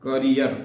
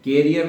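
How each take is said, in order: First: The first vowel sounds like 'uh'. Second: The first vowel sounds like 'eh'. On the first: The speaker calls it right. "The right pronunciation is કરિયર" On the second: The speaker calls it wrong. "કેરિયર ના બોલતા"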